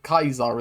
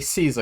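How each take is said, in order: First: The name begins with a K sound. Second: The name begins with an S sound. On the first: This is the original Latin pronunciation. "Kaiser is the actual pronunciation. The Latin pronunciation" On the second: This is the common everyday pronunciation. "normal people say Caesar because that's how it's spelt"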